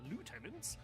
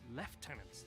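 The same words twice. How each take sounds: First: It is said with a non-British, American-style pronunciation. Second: It is said with a British pronunciation. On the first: The speaker calls it wrong. "they're not backed up by" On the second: The speaker calls it right. "Very British way of saying it"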